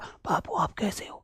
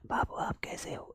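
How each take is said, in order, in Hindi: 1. इसे थोड़ा ज़्यादा तेज़ी से फुसफुसाया गया है। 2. इसे बहुत धीमे से फुसफुसाया गया है। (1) "कोई ज्यादा तेज फुसफुसा रहा होगा" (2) "कोई धीमा फुसफुसा रहा होगा"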